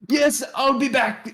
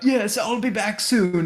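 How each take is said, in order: First: It is said in a voice unlike Sildar's. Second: It is said in Sildar's character voice.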